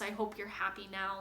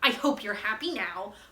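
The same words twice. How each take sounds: First: It is said in a tender tone. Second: It is said in a sarcastic tone.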